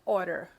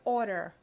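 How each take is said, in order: First: The syllables are blended together quickly. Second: The same.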